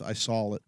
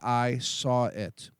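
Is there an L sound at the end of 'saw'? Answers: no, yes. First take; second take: yes; no. First: The word saw ends with an added L. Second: The word saw ends in a plain vowel. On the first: "I like to put an L at the end of saw" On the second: "You say"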